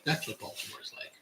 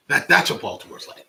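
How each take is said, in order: First: Whispered aside. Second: Said in the usual way. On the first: Real, not acted. Repeated as a soft aside.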